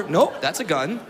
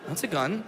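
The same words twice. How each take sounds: First: Said in the usual way. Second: That's a gun said softer, sinking in; quiet repeat. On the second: Shown as a demonstration. Realizing the mugger has a gun, softer repeat. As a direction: drop it softly as it dawns.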